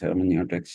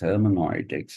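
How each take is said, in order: First: The 'eu' is said like 'yoo'. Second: The 'eu' is said like 'oi'. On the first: "Hermeneutics is hermeneutics" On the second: "E U is pronounced oi in German. So they started pronouncing it as"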